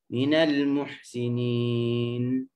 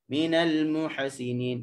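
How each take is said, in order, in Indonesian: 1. Bunyi h menutup suku kata tanpa vokal. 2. Setelah bunyi h ada vokal yang ditambahkan.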